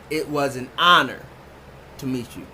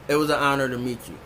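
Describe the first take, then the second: First: The word honor is emphasized with raised pitch. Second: The word honor is said plainly, without emphasis.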